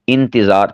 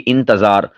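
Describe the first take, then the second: First: The t is followed by an i vowel. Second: The t is followed by an a vowel. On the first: The speaker calls it right. "ता के नीचे ज़ेर" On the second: The speaker calls it wrong. "ता के ऊपर ज़बर बोलते हैं, ये भी गलत है"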